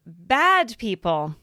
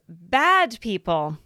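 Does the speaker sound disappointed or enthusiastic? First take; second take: disappointed; disappointed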